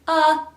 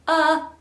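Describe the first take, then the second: First: The vowel starts with a sharp catch. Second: The same.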